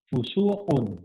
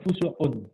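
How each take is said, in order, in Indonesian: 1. Vokal setelah huruf s panjang. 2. Vokal setelah huruf s pendek. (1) "ini berarti pada sinnya ada wawunya" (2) "maka hanya fa, sin, ko"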